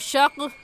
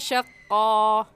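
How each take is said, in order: First: The word stops on the k with no vowel. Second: The word ends with a long 'a' vowel. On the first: The speaker calls it wrong. "ऐसे नहीं रुकेंगे" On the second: The speaker calls it right. "बल्कि कहेंगे शक्का"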